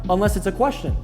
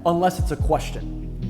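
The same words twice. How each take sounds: First: The pitch rises at the end of the phrase. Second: The pitch falls at the end of the phrase. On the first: The speaker seems unsure of what they are saying. The speaker calls it wrong. "then I don't sound as confident" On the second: The speaker knows what they are talking about. The speaker calls it right. "downward inflection"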